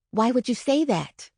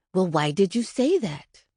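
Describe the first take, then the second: First: A touch of gentle concern. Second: A mildly sharpened, stern question; a hint of sharp impatience. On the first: Retold or imitated. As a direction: ask kindly, trying not to upset him. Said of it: "I asked as gently as I could". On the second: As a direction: press the child for an answer, edged. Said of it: "my voice dropped an octave and turned sharp".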